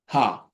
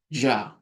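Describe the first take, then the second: First: It begins with a breathy h sound. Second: It begins with an English j sound. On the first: "it's like the H" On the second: "it may sound like a J"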